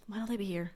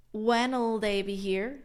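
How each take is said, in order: First: Quick, soft "when'll" run together; super fast. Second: Slow, deliberate "when'll", one syllable; slow contraction. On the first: Teacher showing the fast everyday version. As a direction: rattle it off like a native. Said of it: "Super fast". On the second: Teacher slowly spelling out the contracted question. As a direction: stretch "when'll" so learners catch it. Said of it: "It's like". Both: Shown as a demonstration.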